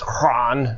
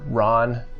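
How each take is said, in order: First: The word begins with an audible H sound. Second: The word begins with no H sound.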